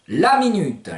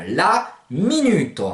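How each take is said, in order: First: Said in the usual way. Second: LA MINUTE slow, ending in o, "minuto"; slow la minute, stressed "mi-NU-to"; Provençal pronunciation. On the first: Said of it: "les minutes". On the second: Shown as a demonstration. Teacher translating minute, slow Provençal pronunciation.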